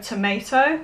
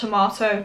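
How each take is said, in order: First: It is said with an American pronunciation. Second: It is said with a British pronunciation. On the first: "the American pronunciation" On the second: "the way that their country pronounces it"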